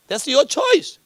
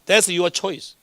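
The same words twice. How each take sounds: First: "choice" pushed high with a rising end; emphatic "choice". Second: Said in the usual way. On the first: Shown as a demonstration. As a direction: lift the pitch and land hard on "choice". Same phrase repeated for emphasis. ("choice"를 높이 올려 강조)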